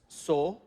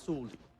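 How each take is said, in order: First: It is said as three separate syllables. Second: It is said quickly with the weak vowel dropped. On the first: "this is three syllables, so, u, and li" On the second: "in everyday speech, it just comes out as suli"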